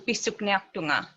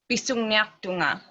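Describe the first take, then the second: First: The middle syllable has a k sound. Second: The middle syllable has an ng sound. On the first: This is the newer way of speaking. "as opposed to" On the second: This is the older way elders speak. "you speak a more older Inuktitut"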